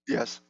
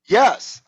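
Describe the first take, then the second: First: It sounds flat and not very sincere. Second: It sounds sincere and fully committed.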